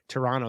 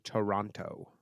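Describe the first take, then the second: First: Toronto is said the clipped local way. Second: Toronto is said the full American way. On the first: This is how people from the city say it. "that that's how uh Torontonians say it" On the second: This is how outsiders say it. "I know Americans say Toronto"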